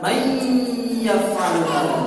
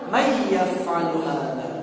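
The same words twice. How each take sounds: First: The nasal sound is held for two counts. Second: The nasal sound is kept short. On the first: The speaker calls it wrong. "tidak ditahan dua harokat ya" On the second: The speaker calls it right. "Jadi mengucapannya bagaimana?"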